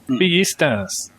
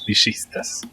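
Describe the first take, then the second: First: The double L sounds like a 'y'. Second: The double L sounds like 'sh'. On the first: "in Mexican it would be Villista" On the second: "we pronounce the double L like a sh"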